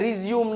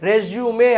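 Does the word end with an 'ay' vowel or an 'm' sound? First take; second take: m sound; ay vowel. First: The word ends on an 'm' sound. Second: The word ends on an 'ay' vowel. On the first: The speaker calls it wrong. "રિઝ્યુમ નહીં" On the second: The speaker calls it right. "રેઝ્યુમે કહેવાય આને"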